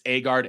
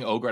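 First: The name begins with an 'ah' vowel. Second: The name begins with an 'oh' vowel. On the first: The speaker calls it right. "I'm going to pronounce it right. It's Agard" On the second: The speaker calls it wrong. "I keep saying Ogard"

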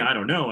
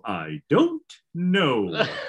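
First: It is said in an ordinary, natural voice. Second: It is said in an exaggerated, put-on cartoon voice. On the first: "I don't say "I don't know."" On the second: "I go"

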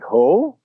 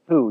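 First: The pitch rises at the end of the name. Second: The pitch falls at the end of the name. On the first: This is the original Vietnamese form of the name. "So it goes kind of up" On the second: This is the Americanized form of the name. "It's the Americanized version of my name"

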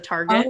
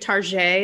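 First: The word is said in a plain, ordinary way. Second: The word is said in a fancy, affected way. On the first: It is the ordinary everyday name. "instead of Target" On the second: It makes something ordinary sound upscale. "just sounds like fancy. It's like saying Target"

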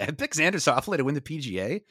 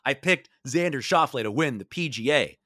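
First: It is said in a plain, ordinary voice. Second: It is said loudly with bold confidence.

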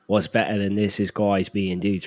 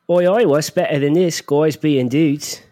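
First: It is said in a low, growly voice. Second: It is said in a higher-pitched voice.

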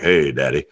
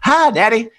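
First: The voice is low and deep. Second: The voice is high and childlike. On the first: This is after the voice changed. "And then one day it's like" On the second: This is before the voice changed. "my dad would call and be like"

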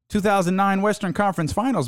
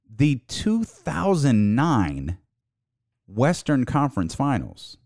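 First: It is said at normal speed. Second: It is said slowly.

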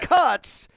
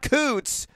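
First: The vowel is short, as in 'cuts'. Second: The vowel is long, as in 'coots'. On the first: The speaker calls it right. "Cuts. Not Coots" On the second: The speaker calls it wrong. "Not Coots"

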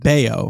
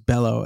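First: The middle consonant is a Y sound. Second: The middle consonant is an L sound. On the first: The speaker calls it right. "It is Bayo" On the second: The speaker calls it wrong. "the first time I said it many moons ago, it was Bello, as in Brian Fellows"

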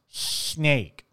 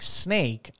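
First: The s sound is distorted by a speech impediment. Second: The s sound is clear and normal. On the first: The speaker calls it wrong. "I would say snake. I could not put my mouth in the proper way" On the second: The speaker calls it right. "instead of something like snake"

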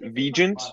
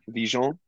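First: The name is said with an American pronunciation. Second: The name is said with a French pronunciation. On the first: This is the pronunciation the family has always used. "I have been raised to pronounce it Vigeant" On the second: This is a new, more glamorous way of saying the name. "But I'm soft launching Vigeant. It's more fun. It's more sexy"

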